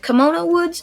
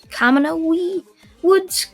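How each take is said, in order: First: The first word sounds like the word kimono. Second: The first word does not sound like kimono. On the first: The speaker calls it wrong. "I know that's probably not the right pronunciation" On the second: The speaker calls it right. "Kamanoe Woods is probably the right one"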